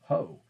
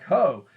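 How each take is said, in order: First: The word is said quietly, without screaming. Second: The word is yelled loudly.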